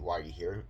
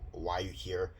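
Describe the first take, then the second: First: The question sounds milder and less condescending. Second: The question sounds strongly condescending and scornful.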